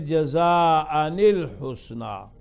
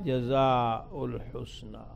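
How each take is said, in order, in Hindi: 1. पहला शब्द 'an' की आवाज़ पर खत्म होता है। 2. पहला शब्द 'u' की आवाज़ पर खत्म होता है। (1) "इसमें तनवीन दे दे, रफ़ा को नसब से बदल दे" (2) "बाकी हजरात क्या पढ़ेंगे"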